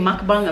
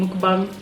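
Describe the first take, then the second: First: "mukbang" as MUCK-bang; MUCK pronunciation. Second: "mukbang" as MOOK-bang; MOOK pronunciation. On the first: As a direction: open the first vowel of "mukbang" to uh. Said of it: "I've seen people saying mukbang". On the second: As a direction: round the first vowel of "mukbang" to oo. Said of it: "Is it said mukbang or mukbang?". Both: Shown as a demonstration.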